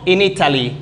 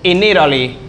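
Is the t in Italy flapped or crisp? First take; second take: crisp; flapped. First: The t in Italy is a clear, crisp t. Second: The t in Italy sounds like a quick r. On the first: This is how it is said in England. "En la zona de Inglaterra" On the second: This is how it is said in the United States. "En esta parte acá, en la zona de Estados Unidos, se dice Italy"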